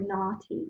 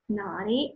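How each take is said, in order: First: It is said in a British accent. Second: It is said in an American accent. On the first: "in British English" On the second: "Io l'ho pronunciato in inglese americano"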